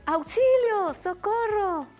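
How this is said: It is said with alarm, sounding frightened. Someone is in danger and asking for help. "hay un poquito de alarma"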